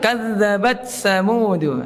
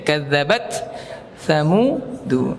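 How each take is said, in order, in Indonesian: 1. Huruf t menyatu dengan bunyi th yang mengikutinya. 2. Huruf t diucapkan dengan hembusan napas yang terdengar. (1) "Jadi bukan diidghamkan ya. Terkadang kita dikal" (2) "jadi harus dihamaskan"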